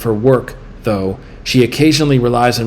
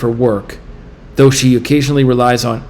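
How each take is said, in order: First: There is a pause after "though". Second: There is no pause after "though". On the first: The speaker calls it right. "then with A as in apple, which is the right answer" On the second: The speaker calls it wrong. "Let me say it with B as in boy"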